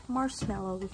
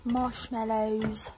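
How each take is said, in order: First: "Marshmallows" said as "mars-mellows". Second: "Marshmallows" said slowly as "mosh-mellows"; louder, stretched "Marshmallows" with a clear sh; drawn-out sh. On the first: Vlogger repeating "Marshmallows" as "mars-mellows", s for sh. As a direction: say "Marshmallows" with a plain s, not sh. Repeats the word, trying pronunciations. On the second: Vlogger repeating "Marshmallows" slowly, with a clear sh. Repeats the word, slow and corrected. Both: Shown as a demonstration.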